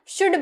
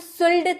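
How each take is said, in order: First: The L sound is silent. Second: The L sound is pronounced. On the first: The speaker calls it right. "शुड बोलते हैं" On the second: The speaker calls it wrong. "शुल्ड नहीं बोलते हैं ना"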